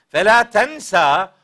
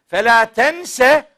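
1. Son kelime açık bir 'a' ünlüsüyle biter. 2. Son kelime daha hafif bir 'e' ünlüsüyle biter. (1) "Fela tensa unutmayacaksın demektir" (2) "Fela tense unutma"

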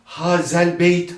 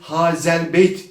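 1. Z keskin, ıslık gibi bir sestir. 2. Z keskin, ıslık gibi bir sestir.

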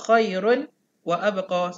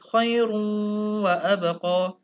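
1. Bunyi n tetap terpisah sebelum w. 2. Bunyi n menyatu menjadi w yang sengau. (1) "Kamu jangan baca khairun wa abqa, salah. ... kamu tak dengung dan kamu tak masuk terus" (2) "Masuk waw terus"

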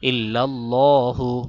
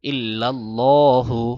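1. l এর উচ্চারণ মোটা ও ভারী। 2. l এর উচ্চারণ মোটা ও ভারী।

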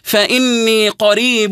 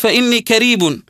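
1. الكلمة الثانية تبدأ بصوت q عميق من الحلق. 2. الكلمة الثانية تبدأ بصوت k بسيط. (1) "الصحيح" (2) "وهذا خطأ"

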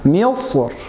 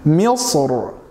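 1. Das finale r ist hell und dünn. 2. Das finale r ist dunkel und schwer. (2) "Nochmal dunkel"

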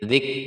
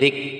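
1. Huruf k dilepas dengan napas yang keluar. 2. Huruf k dilepas dengan napas yang keluar.

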